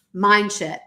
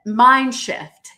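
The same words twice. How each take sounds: First: "mind shift" slurred so "shift" comes out as "shit"; slip of the tongue. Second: "mind shift" with a crisp f in "shift"; careful correction. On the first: Real, not acted. Telling her viewers about mind shift, she slips and says "shit". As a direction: drop the f in "shift", so it sounds like "shit". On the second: Shown as a demonstration. Correcting her slip for the live audience, "shift" said clearly. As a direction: fix it, land the f in "shift" clearly. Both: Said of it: "Freudian slip, eh?".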